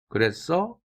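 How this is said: The pitch rises at the end. It is a question. "인토네이션이 올라갔죠?"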